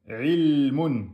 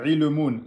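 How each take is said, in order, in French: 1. Le son l est tenu plus longtemps. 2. Le son l est coupé court et précipité. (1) "Vous pouvez faire un temps et demi" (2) "Ça, c'est faux. ... C'est trop rapide"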